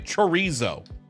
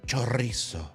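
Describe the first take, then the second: First: The word is said with a plain American accent. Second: The word is said with a put-on foreign accent. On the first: The speaker talks in their own everyday way. The speaker calls it right. "Just say chorizo" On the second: The speaker is showing off a proper pronunciation. The speaker calls it wrong. "clearly speaking in an American accent, and then all of a sudden they're like"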